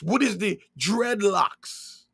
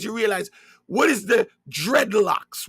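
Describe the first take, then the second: First: Slower, weighty, stress on What; slow emphatic repeat. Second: Said in the usual way. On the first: Real, not acted. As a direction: let "What is the dreadlocks?" sink in, slowly. Same question repeated slower.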